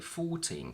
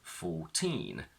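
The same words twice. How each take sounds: First: The stress is on the first syllable. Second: The stress is on the second syllable. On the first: "the stress shifts to the front and we say" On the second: "the stress is on teen"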